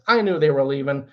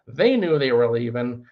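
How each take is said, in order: First: Emphasis on "I" as the one who knew; stress on "I". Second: Emphasis on the first "They"; stress on "They". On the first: Landlord frustrated by wasted time, stressing "I". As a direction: lean on "I" for contrast. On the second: Landlord frustrated by tenants stalling, stressing "They". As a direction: lean on the opening "They" for contrast. Contrast of who knew. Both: Real, not acted.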